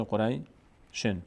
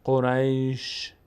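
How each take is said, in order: First: "قریشن" slowly, shin carrying a vowel and n; continuing form. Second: "قریش" slow, ending in a bare sh; stopping form. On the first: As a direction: draw out "قریشن", ending on a clear -shen. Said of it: "اگه ادامه بدیم". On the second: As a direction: draw out "قریش" and stop on ش without a vowel. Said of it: "این وقتی است که ما اینجا توقف بکنیم". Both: Shown as a demonstration.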